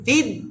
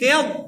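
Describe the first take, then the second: First: The consonant is a plain light d sound. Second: The consonant is heavy, tongue root pressed back. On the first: The speaker calls it wrong. "ফিদ ডাল হয়ে গেছে" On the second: The speaker calls it right. "বদ মুটা"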